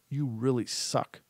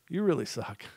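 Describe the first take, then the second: First: It is said with heavy, charged emotion. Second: It is said lightly, with a laughing tone. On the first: "one of them I charged" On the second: "The first one I gave a light energy"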